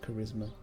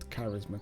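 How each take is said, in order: First: The word is said with an English pronunciation. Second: The word is said with a German-like pronunciation. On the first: The speaker calls it right. "I should pronounce it properly" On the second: The speaker calls it wrong. "not charisma"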